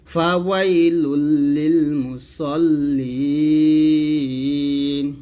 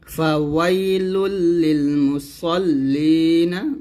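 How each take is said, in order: First: Slow chant, holding মুসল্লিন long onto n; pausal ending. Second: Slow chant ending মুসল্লিনা on an open "na"; voweled ending. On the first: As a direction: stop on মুসল্লিন with no final vowel. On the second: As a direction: sound the final a of মুসল্লিনা. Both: Shown as a demonstration. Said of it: "যদি থামেন তাহলে বলতে হবে".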